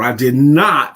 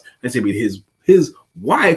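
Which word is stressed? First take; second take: not; wife. First: The stress falls on the word not. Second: The stress falls on the word wife. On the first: It is a firm denial. "It's an emphatic denial" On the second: It may have been a different victim. "It could have been his child"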